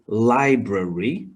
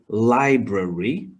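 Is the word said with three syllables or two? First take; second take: three; three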